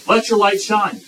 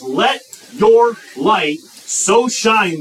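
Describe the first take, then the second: First: Said in the usual way. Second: Drawn-out, louder, stress on your; slow emphatic scripture. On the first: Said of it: "repeated as plain statement". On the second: Shown as a demonstration. Preacher quoting Jesus to the congregation, slow and emphatic. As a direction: read it out slowly, leaning on your. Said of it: "quoting scripture slowly".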